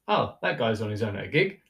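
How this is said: It is said with an admiring, upbeat tone. He is having a great time alone. "I just said the same thing, but the tone was different"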